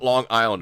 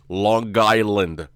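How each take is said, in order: First: The two words are said separately. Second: The two words are run together as one. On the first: The speaker calls it wrong. "it's not Long Island" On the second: The speaker calls it right. "All one word"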